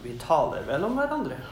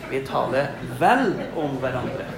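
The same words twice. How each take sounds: First: The word vel is light and unstressed. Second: The word vel carries clear stress. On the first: We probably gossip about each other. The speaker calls it wrong. "Det er ikke sånn at" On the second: We speak well of each other. The speaker calls it right.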